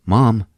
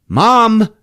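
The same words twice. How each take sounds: First: Said in the usual way. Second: High, loud shout to get attention; calling louder. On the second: Retold or imitated. Peter to his sleepwalking mom, shouting. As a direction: raise it sharply into a shout.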